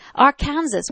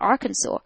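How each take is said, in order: First: It is said as spelled, ending like 'Kansas'. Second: It ends with a 'saw' sound, no final s. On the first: "Why don't you pronounce it like that?" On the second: "But it's Arkansas"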